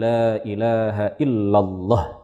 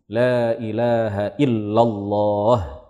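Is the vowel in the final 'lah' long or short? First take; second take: short; long. First: The vowel in 'lah' is cut short. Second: The vowel in 'lah' is held long. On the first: The speaker calls it wrong. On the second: The speaker calls it right.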